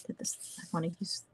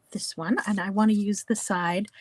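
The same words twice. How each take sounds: First: Soft, fast whisper to herself; a quick private whisper before restarting the sentence; whispered aside. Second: Said in the usual way. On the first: Real, not acted. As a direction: mutter it under the breath, quickly. Muttered aside while fixing a slip.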